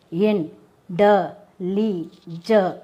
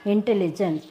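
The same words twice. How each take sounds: First: "in, de, li, je" broken into separate syllables. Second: Said in the usual way. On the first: Shown as a demonstration. Teacher counting the syllables of intelligent, syllable by syllable. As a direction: say "in, de, li, je" one beat at a time, pausing between. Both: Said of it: "how many syllables is there".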